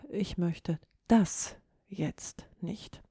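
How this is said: The stress falls on the word das. The speaker rejects this particular thing, maybe wants another. "Die 3. Form der Betonung"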